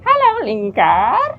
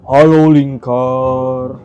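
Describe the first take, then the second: First: A goblin character voice. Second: A round, full genie character voice. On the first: "suara goblin" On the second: "suara jin bulat gitu"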